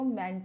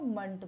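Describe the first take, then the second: First: The ending has a full 'e' vowel. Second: The ending has a weak, reduced vowel. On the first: The speaker calls it wrong. "मेंट नहीं बोलते हैं" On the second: The speaker calls it right. "हम उसको मंट बोलते हैं"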